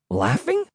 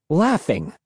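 First: Puzzled question. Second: Said in the usual way. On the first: A narrator's reading. Narrator echoes word in disbelief.

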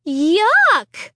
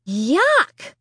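First: Loud falling groan of disgust. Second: Nose pinched, rising yuck; holding nose. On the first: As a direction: groan it, sickened. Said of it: "I groaned". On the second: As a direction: say it with your nose held. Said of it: "I repeated, holding my nose". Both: A narrator's reading.

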